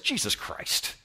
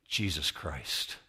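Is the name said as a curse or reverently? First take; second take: curse; reverently. First: It is blurted out like an angry curse. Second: It is said slowly and respectfully, like worship. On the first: It is used as a swear word. "if you say it like this, Jesus Christ, it's okay. Crowd's good with that" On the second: It names him with reverence. "But if you say, Jesus Christ, it's different"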